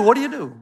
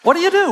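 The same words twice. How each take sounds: First: Said in the usual way. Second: Mock panic. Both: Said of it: "So I thought".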